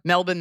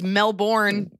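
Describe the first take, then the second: First: The R sound after the first vowel is dropped. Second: The R sound after the first vowel is pronounced. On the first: This is how it is said over there. "Melbourne there" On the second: This is how it is said locally here. "it's Melbourne here because we say the R"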